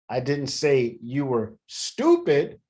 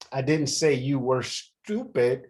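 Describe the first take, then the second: First: The stress is on "stupid". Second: The stress is on "say".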